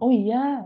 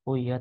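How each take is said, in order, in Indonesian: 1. Diucapkan dengan keras dan nada tinggi. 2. Diucapkan dengan keras dan nada rendah. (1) "pitch-nya tinggi sekali" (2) "intonasinya rendah"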